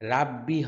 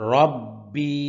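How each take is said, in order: First: The r is light with a bright vowel. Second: The r is heavy with a dark vowel. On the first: The speaker calls it wrong. "রাব্বি হবে না।" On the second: The speaker calls it right. "র মোটা হরফ।"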